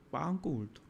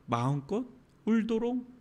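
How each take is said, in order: First: 마음껏 leaned on, much softer; quiet repeat, weight on 마음껏; soft stress on 마음껏. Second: Said in the usual way. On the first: Shown as a demonstration. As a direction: press gently on 마음껏.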